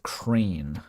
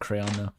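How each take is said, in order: First: The word sounds like crane. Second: The word sounds like crayon. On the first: "some people pronounce it crane" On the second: "I actually do pronounce it crayon"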